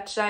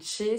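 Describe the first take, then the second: First: The word ends with an open 'a' vowel. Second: The word ends with a closed 'é' vowel. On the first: The speaker calls it wrong. "on dit pas Tcha" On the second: The speaker calls it right. "on dit Tché"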